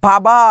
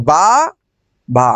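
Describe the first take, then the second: First: Said in the usual way. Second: বাবা split into বা, বা, with a clear pause between; pausing between syllables. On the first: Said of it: "কিন্তু আমি বললাম". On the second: Shown as a demonstration. Teacher showing students two syllables, বা and বা said apart. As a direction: say বা, stop, then বা as two separate beats. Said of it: "দুইবার।".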